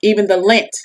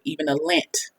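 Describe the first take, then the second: First: Lint said out plainly with a rising lift; stress on lint. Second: Dropped low punchline. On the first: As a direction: repeat it clearly, lean on the word lint with a rising end. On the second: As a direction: say the lint part very softly, almost under the breath. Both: Shown as a demonstration. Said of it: "You hear that?".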